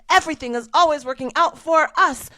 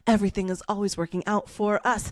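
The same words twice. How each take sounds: First: It is said loudly and forcefully. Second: It is said at a medium volume.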